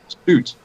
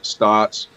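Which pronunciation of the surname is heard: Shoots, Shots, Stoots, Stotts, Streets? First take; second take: Stoots; Stotts. First: The name rhymes with boots. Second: The name has a short o vowel. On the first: The speaker calls it right. "like boots, like roots" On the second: The speaker calls it wrong. "slaughtered my both my names"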